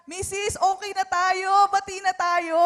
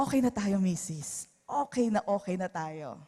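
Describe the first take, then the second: First: Louder, higher-pitched make-up appeal; upbeat peace offer. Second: Soft, falling, conciliatory tone; gentle reconciling. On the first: Husband to plate-throwing wife, upbeat peace offer. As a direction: call out a truce to an upset wife. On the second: Hurt husband to wife, gently making peace. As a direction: let it drop into a tender truce. Gives in lovingly despite being hurt. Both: Acted.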